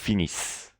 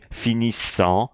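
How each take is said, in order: First: The final ending is silent. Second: The final ending is pronounced aloud. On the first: The speaker calls it right. "I'm not pronouncing the E N T here" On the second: The speaker calls it wrong. "I'm not saying finissant"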